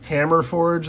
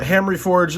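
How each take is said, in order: First: The first part sounds like 'hammer'. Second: The first part sounds like 'hamry'. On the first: The speaker calls it wrong. "I've been saying that wrong" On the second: The speaker calls it right. "they pronounced it Hamry"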